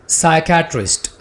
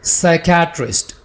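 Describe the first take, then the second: No difference in how they are said.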